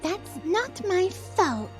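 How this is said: It is said imitating Wednesday's voice.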